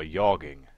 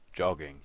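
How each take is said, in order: First: Yogging, with a Y sound opening it; soft J. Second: Said in the usual way. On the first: Shown as a demonstration. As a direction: say jogging as yogging, J turned into Y. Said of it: "Might be a soft J". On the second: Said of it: "it's either jogging or".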